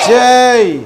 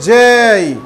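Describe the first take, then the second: The two takes are said the same way.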